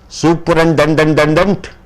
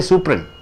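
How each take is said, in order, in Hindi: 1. हर t और d की ध्वनि बोली जाती है। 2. t और d की ध्वनियाँ छोड़ दी जाती हैं। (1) "Do you call like that?" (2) "But you say superin"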